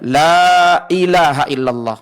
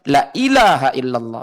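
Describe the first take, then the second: First: The vowel of 'la' is held long. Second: The vowel of 'la' is cut short. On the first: There is no god but God. The speaker calls it right. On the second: There truly is a god besides God. The speaker calls it wrong.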